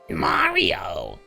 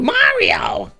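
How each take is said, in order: First: It is said in a lower put-on voice. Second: It is said in a higher put-on voice. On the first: "maybe lower" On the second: "let me see if I can do a, a Toad voice"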